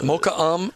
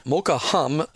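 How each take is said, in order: First: "Um" starting on the vowel, no H; "Um" as pronounced, H left silent. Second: "Um" said as "hum", with an audible H; "Um" voiced as spelled, starting with H; H sounded. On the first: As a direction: say "Um" with the H dropped. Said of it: "is how it's pronounced". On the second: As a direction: put an H on the front of "Um". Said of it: "or s-, uh, spelled". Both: Shown as a demonstration.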